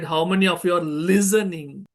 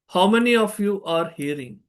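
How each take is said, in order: First: "listening" leaned on; stress on listening. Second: "hearing" leaned on; stress on hearing. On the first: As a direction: press the word "listening". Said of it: "stretched at hearing and listening". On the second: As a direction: press the word "hearing". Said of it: "I have stretched at hearing". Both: Shown as a demonstration.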